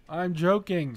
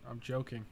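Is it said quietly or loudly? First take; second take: loudly; quietly. First: It is said louder, with more volume. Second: It is said at a quiet, normal volume.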